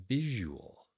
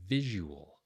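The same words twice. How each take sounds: The two takes are said the same way.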